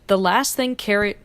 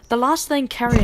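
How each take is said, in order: First: It is said in the speaker's ordinary accent. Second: It is said in a put-on British accent.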